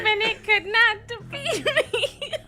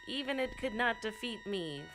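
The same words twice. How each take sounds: First: It is said in a put-on evil villain voice. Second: It is said in a normal reading voice.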